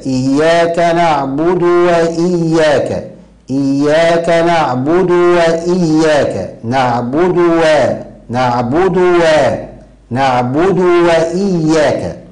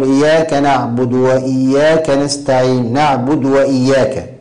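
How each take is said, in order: First: Slow, higher chant, نعبد said "naʕbudu" before وإياك; deliberate "naʕbudu wa-iyyaaka" on نعبد وإياك; clear damma on dal. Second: نعبد run into وإياك as "naʕbudwa"; recited with a vowelless د ending نعبد; dropped damma on dal. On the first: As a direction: sound the u on د of نعبد, then a clear w. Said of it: "ولكن الصواب هكذا". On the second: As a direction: cut the u after د in نعبد. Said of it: "تسكين الد-، الدال في نعبد". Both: Shown as a demonstration.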